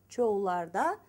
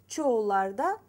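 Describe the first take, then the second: No difference in how they are said.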